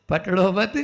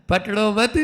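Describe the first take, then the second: No difference in how they are said.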